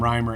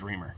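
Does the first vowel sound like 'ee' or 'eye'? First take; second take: eye; ee. First: The first vowel sounds like 'eye'. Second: The first vowel sounds like 'ee'. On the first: This is how the owner says the name. The speaker calls it right. "Hi, I'm Reimer" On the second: This is how people guess it from the spelling. The speaker calls it wrong. "The next thing you would say is Reimer"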